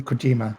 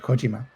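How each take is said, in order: First: The stress is on the second syllable. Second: The stress is on the first syllable. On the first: The speaker calls it wrong. "they don't say Kojima" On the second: The speaker calls it right. "they said Kojima"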